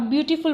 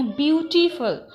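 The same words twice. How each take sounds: First: Said in the usual way. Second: beautiful said slowly with weight on BYOO; stress demo. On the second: Shown as a demonstration. Teacher showing trainees where beautiful carries stress, slow and stressed. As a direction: model beautiful slowly, leaning on the first syllable. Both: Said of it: "कहाँ पर stress दे के बोलना".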